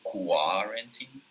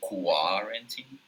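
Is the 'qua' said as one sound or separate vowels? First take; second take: separate vowels; separate vowels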